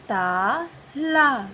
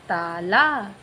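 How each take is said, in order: First: ताला with a very long drawn-out aa, slowly; stretched demo. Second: Said in the usual way. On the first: Shown as a demonstration. Teacher to pupils, ताला drawn out slowly. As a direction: pull out each aa in ताला. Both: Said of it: "त के साथ निकला आ".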